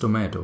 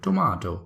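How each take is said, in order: First: The word is said in a non-British accent. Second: The word is said in a British accent. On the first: "I read the word and I say, this is tomato for sure" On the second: "in the British accent, they call it tomato"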